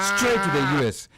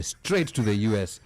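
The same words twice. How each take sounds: First: "straight to the U S" higher and louder, slow; punchy emphasis. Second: Said in the usual way. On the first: Acted. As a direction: hit "straight to the U S" slow and loud. Repeated punchline, louder second take.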